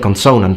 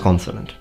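First: The stress falls on the second syllable. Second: The stress falls on the first syllable. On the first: The speaker calls it wrong. "I did say consonant in one of the videos I made" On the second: The speaker calls it right. "but now I know it's consonant"

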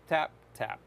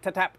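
First: The two taps are separated by a short pause. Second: The two taps run together quickly without pause. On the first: The presses come at a moderate speed. The speaker calls it right. "a little bit of like a pause between them" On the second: The presses come as fast as possible. The speaker calls it wrong. "not ta-tap as fast as you can"

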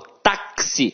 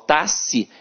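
First: The x is said as ks. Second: The x is said as a single sound. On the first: The speaker calls it right. "o X aqui tem som de KS" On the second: The speaker calls it wrong. "eu não falo táxi"

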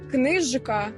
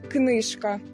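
First: The middle consonant is voiced, like zh. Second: The middle consonant is devoiced, like sh. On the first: The speaker calls it right. "не оглушують дзвінких" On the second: The speaker calls it wrong. "а не «книжка»"

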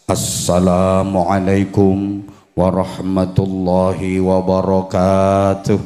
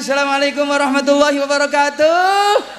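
First: The voice wavers and shakes through the greeting. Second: The greeting is said in a lively, showy way. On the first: It draws the audience's attention before a sermon. "suaranya digedek-gedek ke untuk memancing para jamaah biar fokus" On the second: It is a performer greeting a crowd. "penyanyi salamnya kan ayo selamat malam semuanya"

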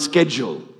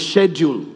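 First: Schedule is said with an American pronunciation. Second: Schedule is said with a British pronunciation. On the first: This is how speakers in the States say it. "and not schedule. Till we got to the States and we pronounced it better" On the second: This is how speakers from a former English colony say it. "we learned the Queen's English. Right? So we say schedule"

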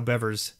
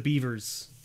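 First: The first vowel is short, as in beverage. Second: The first vowel is long, as in beaver. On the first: "if you think of the word beverage, right? That's how Bevers sounds" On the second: "a lot of people go with the Beavers"

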